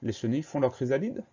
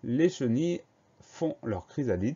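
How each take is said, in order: First: The voice rises at the end. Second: The voice falls at the end.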